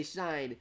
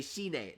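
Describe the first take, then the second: First: "shine" said as English shine, one syllable; "shine" rhymes with line; plain English "shine". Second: "shine" said shee-neh, two syllables; "shine" the Japanese way, shi-ne. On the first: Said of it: "they meant to say shine". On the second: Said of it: "didn't mean to say shine". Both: Shown as a demonstration.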